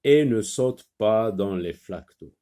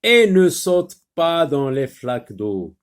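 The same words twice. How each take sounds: First: Said in the usual way. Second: Loud, projected classroom reading; emphatic dictation voice; teacher reading aloud. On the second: Shown as a demonstration. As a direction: read it out clearly for beginning readers. Teacher rereads the second sentence.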